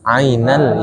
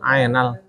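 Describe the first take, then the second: First: The Ain is said in the Arabic way. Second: The Ain is said in an Indonesian-style way. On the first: The speaker calls it right. "Yang benar apa?" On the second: The speaker calls it wrong. "tadi saya dengarnya ainal"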